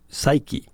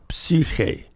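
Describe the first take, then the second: First: Said in the usual way. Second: Psyche said the Greek way, "psee-HEH"; Greek pronunciation. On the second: Shown as a demonstration. Priest citing the Greek word for soul, psyche as "psee-kheh". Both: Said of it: "the word for soul in Greek".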